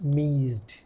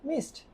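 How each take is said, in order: First: The word ends with a z-d sound. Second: The word ends with an s-t sound. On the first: This is how many learners say it. The speaker calls it wrong. "মিজড অনেকজন বলে আর কি" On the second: This is how native speakers say it. The speaker calls it right. "Native স্পিকাররা তখন এটা হয়ে যাচ্ছে মিসড"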